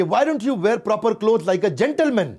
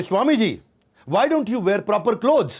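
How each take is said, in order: First: Higher, louder, very slow English; mocking Briton. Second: Higher, louder, slow English; mocking Briton. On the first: Briton repeats the jibe, slow and haughty. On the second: Briton questions the swami's clothes, higher and mocking. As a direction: sneer it like a British gentleman.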